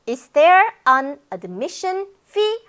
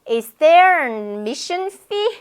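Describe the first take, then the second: First: Every word is said fully and clearly. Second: The first words are swallowed and blurred. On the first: "하지 않고" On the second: "다 먹어버려요"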